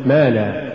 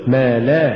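First: ما لا fused as one word; words run together. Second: ما and لا each stressed; separate words. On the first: Teacher shows the mistake, ما لا run together. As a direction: let لا tail off after ما. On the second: Teacher models correct recitation, ما and لا as two words. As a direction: keep لا apart from ما. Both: Shown as a demonstration. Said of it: "ولا تقل".

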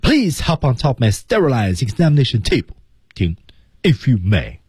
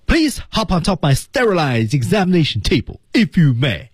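First: High run through "examination table", then stop, then "if you may"; marked pause. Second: High punch on "Please", "sterilized" and "may"; key words stand out. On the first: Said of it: "第二步是停顿". (在“examination table”后停顿，再说“if you may”) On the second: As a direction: make "sterilized" and "may" pop out, pitched up. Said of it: "我们看关键词怎么体现出来". (突出关键词“sterilized”和“may”) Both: Shown as a demonstration.

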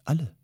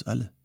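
First: A single word, high and shocked; stunned question. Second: Said in the usual way. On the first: A narrator's reading. Memetschik hears his family was exiled, stunned disbelief.

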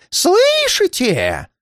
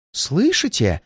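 First: Very high, long drawn-out wail; stretched, high-pitched cry of dread; terrified moan. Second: First alarmed question, raised pitch, held back; hushed-in alarm, higher voice; frightened moan. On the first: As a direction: wail the question in rising panic. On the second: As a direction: ask fearfully without raising the volume. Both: A narrator's reading. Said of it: "простонал он".

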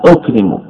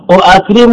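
First: "أكرم" as ukrimu, a single hamza; form in actual usage. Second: "أؤكرم" as u'akrimu, two hamzas; form by analogy. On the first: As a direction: say "أكرم" as u-kri-mu, second hamza gone. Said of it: "لكن الاستعمال". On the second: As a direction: say "أؤكرم" with both glottal stops, u-'a-krimu. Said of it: "هذا قياس". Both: Shown as a demonstration.

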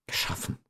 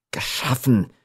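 First: Barely audible whisper; stunned echo. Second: "geschaffen" repeated aloud after a whisper; questioning repetition. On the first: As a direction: breathe the word out very softly. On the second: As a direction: say "geschaffen" voiced, falling at the end. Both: A narrator's reading. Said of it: "wiederholte Giovanni".

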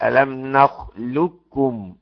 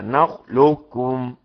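First: نخلقكم said slowly with ق merged into a doubled ك; slow نخلقكم, one doubled ك, no ق; full assimilation. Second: نخلقكم said slowly, the ق still faintly heard before ك; slow نخلقكم with the ق kept heavy; partial assimilation. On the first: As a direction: model نخلقكم fully merged. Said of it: "الإضغام الكامل". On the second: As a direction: model نخلقكم with the ق not fully merged. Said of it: "تبقى إزاي". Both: Shown as a demonstration.

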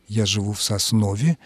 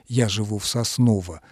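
First: Соснове declined, ending in -е; older-norm declined form. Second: Сосново undeclined, ending in unstressed -о; newer undeclined form. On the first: Language expert citing the older norm, Соснове ending in -е. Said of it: "по этой старшей норме". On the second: Language expert allowing the newer norm, Сосново ending in -о. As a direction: keep the -о at the end of Сосново. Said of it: "сказать уже можно". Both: Shown as a demonstration.

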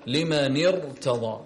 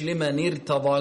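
First: Slow لمن ارتضى with a thick, broad ra; heavy ra. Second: لمن ارتضى with the ra made thin and light; wrong light ra. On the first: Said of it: "الحكم هنا التفخيم". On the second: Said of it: "مش". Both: Shown as a demonstration.

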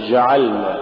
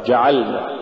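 First: جعلنا with ج softened to a "zh"; faulty jeem. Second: Said in the usual way. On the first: Shown as a demonstration. Teacher showing a recitation error, zh-like jeem in جعلنا. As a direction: let breath flow through the ج of جعلنا. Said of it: "تقرأ لحنا". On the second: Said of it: "والصواب".

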